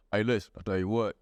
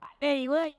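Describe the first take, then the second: First: Very low Southern country-singer voice; deep Southern baritone. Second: High-pitched Southern twang. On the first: Comic imitating a Southerner like the Oak Ridge Boys, deep baritone. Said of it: "when they have that deep baritone". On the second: Comic imitating the Southerner who burns crosses, high Southern voice. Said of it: "The one that talk like this". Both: Acted.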